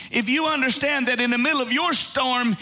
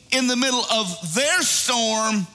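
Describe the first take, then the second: First: "your" leaned on to point at the listener; stress on YOUR. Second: "their" leaned on and drawn out; stress on THEIR. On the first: Preacher applying the story to the congregation, stress on "your". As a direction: land firmly on YOUR before "storm". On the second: Preacher telling of the disciples' storm, stress on "their". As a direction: set THEIR apart from the rest. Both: Real, not acted.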